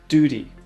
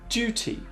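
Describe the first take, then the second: First: It is said with an American accent. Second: It is said with a British accent.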